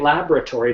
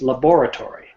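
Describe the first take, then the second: First: The 'bor' part is reduced or dropped. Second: The 'bor' part is said clearly as spelled. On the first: This is how most people say it. "most people say laboratory" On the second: This follows the spelling of the word. "as you can see from the spelling of the word, it's laboratory"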